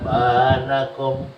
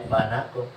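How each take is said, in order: First: The first vowel is raised and held for two beats. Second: The first vowel is short, held one beat. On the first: The speaker calls it wrong. "agak agak tinggi ngangkatnya berarti itu dua" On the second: The speaker calls it right. "Padahal pendek tuh ya"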